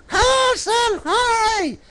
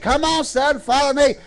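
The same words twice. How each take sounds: First: Very high, drawn-out puppet squeak; high puppet mimicking a lady calling. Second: Said in the usual way. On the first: Puppet answers what the lady did.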